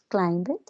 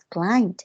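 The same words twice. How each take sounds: First: The ending is said as a separate extra syllable. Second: The ending joins the word with no extra syllable. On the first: The speaker calls it wrong. "Para que no digamos climbed" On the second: The speaker calls it right. "sino se pronuncia climbed"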